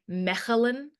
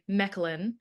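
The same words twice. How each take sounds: First: The name is said with a local Dutch pronunciation. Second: The name is said with a plain English pronunciation. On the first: This is how the people who live there say it. "in the way that people who say it that live there, they would say" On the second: This is an easy version for English speakers. "for the average English speaker, we can just say"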